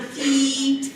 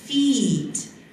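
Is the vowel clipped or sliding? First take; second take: clipped; sliding. First: The vowel is short and stays level. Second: The vowel is long and glides in pitch. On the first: The speaker calls it wrong. "It's not feet" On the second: The speaker calls it right. "it slides, so it doesn't stay at the same level"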